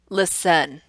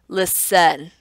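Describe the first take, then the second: Both takes have the same delivery.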